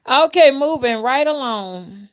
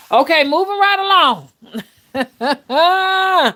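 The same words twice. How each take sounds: First: Higher, louder, slow, still chuckling; amused repeat. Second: Much higher and louder, slow sing-song; playful change of subject. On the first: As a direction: say it again through leftover laughter. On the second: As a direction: sing it out to brush the topic away. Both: Real, not acted.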